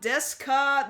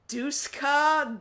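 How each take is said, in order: First: The first syllable sounds like 'des'. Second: The first syllable sounds like 'dus'.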